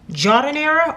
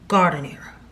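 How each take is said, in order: First: The word begins with a soft J sound. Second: The word begins with a hard G sound. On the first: "is it J?" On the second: "or G?"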